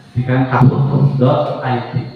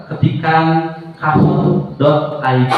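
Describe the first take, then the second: First: Said in the usual way. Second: Slow dictation. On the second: Shown as a demonstration. Teacher telling students what to type, dictated very slowly. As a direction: spell out ketikan kahoot dot I D very slowly. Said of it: "Silahkan kamu masuk ke browser".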